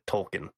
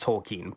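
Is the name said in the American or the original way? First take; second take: American; original. First: The name is said the common American way. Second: The name is said the original, non-American way. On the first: This is how people in the U.S. say it. "but the U.S. calls it Tolkien" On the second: This is how the name is really pronounced. "I believe his name is actually pronounced Tolkien"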